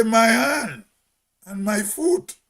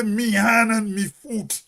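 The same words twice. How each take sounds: First: "My hand and my foot" with a full "my", not "me"; Hermitage "my" form. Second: "Me hand and me foot" with "me" in place of "my", drawn out slow; dialect "me" form. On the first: Hermitage man shows how we say it, full "my". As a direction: say a clear "my" before "hand" and before "foot". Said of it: "We say". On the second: Hermitage man shows what a real Hermitarian don't say, dialect "me". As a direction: say "me" slowly for "my" before "hand" and "foot". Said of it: "a real Hermitarian don't say". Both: Shown as a demonstration.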